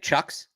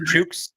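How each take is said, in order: First: The vowel sounds like the one in 'cut'. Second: The vowel sounds like the one in 'book'. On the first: The speaker calls it wrong. "I've been saying Chucks" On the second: The speaker calls it right. "but is it Chooks?"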